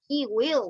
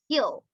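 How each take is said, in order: First: Both words are said fully and separately. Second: The two words merge into one short syllable. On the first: The speaker calls it wrong. "we don't say he will" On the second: The speaker calls it right. "we say he'll"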